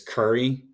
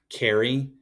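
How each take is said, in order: First: The first vowel is an 'uh' sound. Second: The first vowel is an open 'a' sound. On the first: "somebody from D C would say it more like uh" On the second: "in standard English where you say the A"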